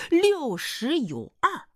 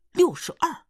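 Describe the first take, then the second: First: 六十有二 drawn out slowly, pitched high; slow emphatic repeat. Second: Said in the usual way. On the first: Acted. Suitor repeats the boss's age, slow and emphatic. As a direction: spell out 六十有二 grandly, word by word.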